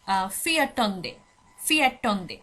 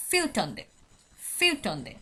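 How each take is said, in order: First: ফিয়াটন্দে said slowly with an "a" after "fi", "fi-a-ton-de"; wrong pronunciation demo. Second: ফিউটন্দে said "fyu-ton-de" with a rounded vowel and a falling end; correct pronunciation demo. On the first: Teacher shows students the incorrect fourteenth, deliberate wrong pronunciation. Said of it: "আমি কিন্তু বলছি না". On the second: Teacher shows students the correct fourteenth, careful pronunciation. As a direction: model the right form ফিউটন্দে twice, low and even. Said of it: "এখানে বলা হচ্ছে". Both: Shown as a demonstration.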